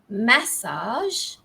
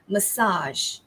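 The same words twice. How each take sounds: First: The stress is on the first syllable. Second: The stress is on the second syllable. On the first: "In British English, it's massage. Okay, ma, first syllable stress" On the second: "And in American English ... So the stress falls on the second syllable"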